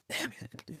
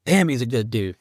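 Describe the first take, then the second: First: Breathy whispered repeat. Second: Said in the usual way. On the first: Real, not acted. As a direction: whisper it to yourself, grieving. Grieving repeat, whispered to himself.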